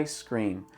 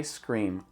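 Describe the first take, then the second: Both takes have the same delivery.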